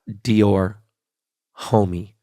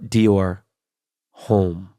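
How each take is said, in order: First: The second word ends with an 'ee' sound. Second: The second word ends without an 'ee' sound. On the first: The speaker calls it wrong. "Not Dior Homie" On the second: The speaker calls it right. "but Dior Home"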